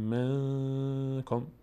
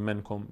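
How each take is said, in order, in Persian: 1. «ن» مخفی است، از بینی ادا میشود و کمی نگه داشته میشود. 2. «ن» کامل و واضح ادا میشود. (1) "میگیم منکم، صدا از بینی ادا میشه و مخفی میشه در بینی، مقداری هم روش توقف میکنیم" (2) "نمیگیم منکم"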